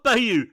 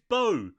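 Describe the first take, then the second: First: The name is said with two syllables. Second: The name is said with one syllable. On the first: The speaker calls it wrong. "It's not Bayou" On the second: The speaker calls it right. "It's Bo"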